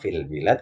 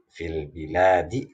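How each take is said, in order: First: The phrase stops on the final consonant. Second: The phrase ends with a final vowel. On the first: The reading stops at this word. "kalau dibaca wa waqaf" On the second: The reading continues into the next word. "kalau baca wasal"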